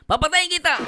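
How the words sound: It is said harshly and forcefully. "May pagka-brutal"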